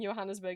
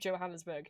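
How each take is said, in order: First: The name begins with a Y sound. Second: The name begins with a J sound. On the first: It follows the German way of saying it. The speaker calls it wrong. "I keep saying Johannesburg" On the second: It follows the English way of saying it. The speaker calls it right. "instead of Johannesburg"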